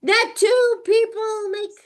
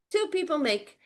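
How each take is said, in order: First: "two" hit high and loud; "two" raised and pushed out louder; stress on TWO. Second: Said in the usual way. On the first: Shown as a demonstration. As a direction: punch the word "two". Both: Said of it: "Why am I emphasizing this?".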